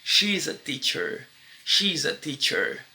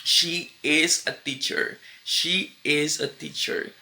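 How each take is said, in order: First: "She's" blended into one syllable, shiz; contraction she's. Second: "She is" said slowly as two full words; full form she is. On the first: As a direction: merge "she's" into one smooth sound. (contração "she's" numa sílaba) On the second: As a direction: give "she" and "is" each their own beat. (forma completa "she is", pausada) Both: Shown as a demonstration.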